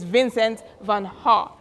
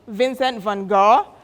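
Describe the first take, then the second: First: Gogh is said the original, native way. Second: Gogh is said the everyday English way. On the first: This is the proper pronunciation. The speaker calls it right. "the correct pronunciation is Vincent van Gogh" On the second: This is how people usually say it. The speaker calls it wrong. "we call Vincent van Gogh"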